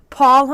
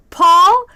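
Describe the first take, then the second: First: PAUL stated as a plain, firm answer; matter-of-fact answer. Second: PAUL raised high and loud as a question; surprised recognition. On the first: Regular gives the name for his to-go order, matter-of-fact. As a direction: give PAUL as a flat statement, no question. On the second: Server recognizes her regular on the phone, surprised question on PAUL. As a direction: ask PAUL with a sharp upward lift. She checks if it's that Paul. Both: Retold or imitated.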